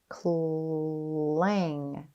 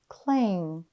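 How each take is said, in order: First: The word is stretched out slowly, sound by sound. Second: The word is said quickly as one smooth unit. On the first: "Tap and stretch" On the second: "Say it fast"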